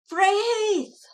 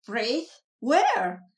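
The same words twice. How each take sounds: First: A sudden high, loud cry of fright; boy shrieks in terror at the attic creature; frightened cry. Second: Startled echo rising to a loud yelp; spooked ghoul jumps at the word, voice climbing; terrified. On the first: Boy in the attic cries out at the creature, high and loud in fright. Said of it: "he cried". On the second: Ghoul hears the word and looks around, rising to a loud frightened yelp. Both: A narrator's reading.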